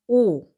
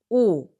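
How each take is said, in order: Both takes have the same delivery.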